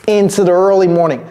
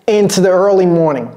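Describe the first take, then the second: The two takes are said the same way.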